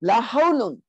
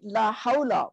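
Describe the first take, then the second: First: "hawlun" with a full -un, louder; heavy ending. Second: "hawla" ending in a short a; light ending. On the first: Teacher showing what it could have been, heavy "hawlun". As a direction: sound the final n of "hawlun". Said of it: "it could have been". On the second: Teacher showing the powerful negation, light -a on "hawla". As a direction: drop the n, say "hawla". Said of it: "light and nasab". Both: Shown as a demonstration.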